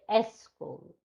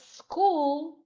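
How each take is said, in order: First: An extra vowel comes before the s sound. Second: The word starts directly with the s sound. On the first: The speaker calls it wrong. "foreigners say S school" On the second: The speaker calls it right. "instead of school"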